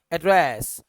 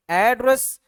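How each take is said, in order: First: address as "uh-DRESS"; short start, stretched ending on address; British last-syllable stress. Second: address as "AAD-ress", higher and louder; American first-syllable stress. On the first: Teacher contrasting British address, end-stressed. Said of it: "आखिर में खींचेगा". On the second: Teacher contrasting American address, front-stressed. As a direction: punch the start of address. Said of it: "शुरू में खींचेगा". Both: Shown as a demonstration.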